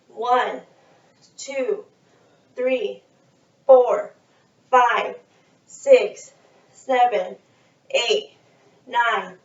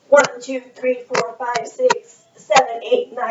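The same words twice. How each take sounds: First: The numbers are counted at a slow pace. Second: The numbers are counted at a fast pace. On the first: "We're going to do the first one slow" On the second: "the next sequence is fast"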